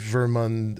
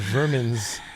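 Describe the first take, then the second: First: The name ends with a clear 'mund' sound. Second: The name sounds like the word vermin. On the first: The speaker calls it right. "Vermund or Vermund is better than vermin" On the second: The speaker calls it wrong. "We said it in a way that sounds like vermin"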